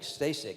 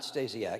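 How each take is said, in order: First: The name ends with a short 'sek' sound. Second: The name ends with a longer 'siak' sound. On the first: The speaker calls it right. "he told us that" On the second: The speaker calls it wrong. "not Stasiak"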